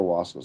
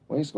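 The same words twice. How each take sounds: First: Wasco with an open AH, WAHS-koh; second pronunciation option. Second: Wasco with a long A, WAYS-koh; first pronunciation option. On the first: Checking the viewer's answer, Wasco said WAHS-koh. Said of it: "So it's Wasco". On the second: Checking the viewer's answer, Wasco said WAYS-koh. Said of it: "wanna pronounce these things". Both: Shown as a demonstration.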